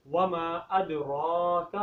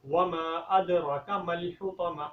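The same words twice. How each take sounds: First: ادراک with the ra held two alifs long; correct lengthening. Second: ادراک with the ra barely lengthened; wrong pronunciation. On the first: Teacher models correct ادراک, long ra. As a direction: stretch the ra in ادراک. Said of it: "را کو لمبا کریں گے". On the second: Teacher shows the mistake, short ra in ادراک. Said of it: "یہ غلطی ہے". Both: Shown as a demonstration.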